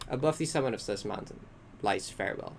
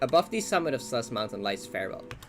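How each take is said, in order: First: A pause comes before "lies Farewell". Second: It runs straight through without a pause. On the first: The speaker calls it right. "like that instead. Like a bit of empty space in there" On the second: The speaker calls it wrong. "I like read it very fast"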